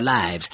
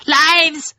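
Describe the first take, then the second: First: Said in the usual way. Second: High, loud wailed word; echoing chorus cry. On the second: A narrator's reading. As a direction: cry it back as a despairing crowd. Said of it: "voices echoed".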